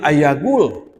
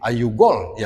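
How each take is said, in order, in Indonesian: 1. Vokal pertama kata kerjanya 'a'. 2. Vokal pertama kata kerjanya 'u'.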